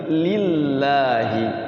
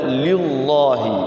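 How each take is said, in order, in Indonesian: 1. Huruf L dibaca tipis dan ringan. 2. Huruf L dibaca tebal dan berat. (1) "tapi lillahi, lillah, tipis ya" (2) "Kalau dibaca tebal bagaimana? ... Jangan begitu"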